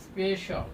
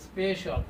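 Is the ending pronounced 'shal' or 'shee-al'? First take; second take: shal; shal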